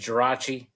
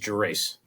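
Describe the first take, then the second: First: The surname is said with an Italian pronunciation. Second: The surname is said with an American pronunciation. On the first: "the Italian way is" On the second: "American way is"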